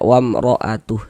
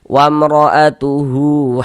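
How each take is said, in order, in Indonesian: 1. Kata wamra'atuhu berakhir dengan bunyi h mati. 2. Kata wamra'atuhu berakhir dengan vokal hu yang dipanjangkan. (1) "huruf H nggak dibaca panjang" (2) "Hu dibaca dengan panjang dua harokat"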